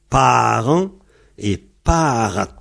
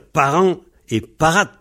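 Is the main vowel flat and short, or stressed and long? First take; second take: stressed; flat. First: The vowel is long and clearly stressed. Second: The vowel is short and carries no stress. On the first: The speaker calls it right. "mais parent et parat. On n'oublie pas d'accentuer voilà. La voyelle, elle est longue" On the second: The speaker calls it wrong. "il faut surtout pas dire parent et parat"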